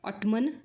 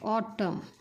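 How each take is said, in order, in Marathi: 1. हा शब्द n आवाजाने संपतो. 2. हा शब्द m आवाजाने संपतो. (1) "ऑटमन नाही"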